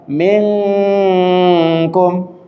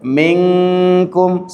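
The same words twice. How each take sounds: First: The nasal hum is held much too long. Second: The nasal hum is held about two beats. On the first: The speaker calls it wrong. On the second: The speaker calls it right.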